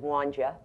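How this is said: It is said in Ruth's South Jersey accent, run together.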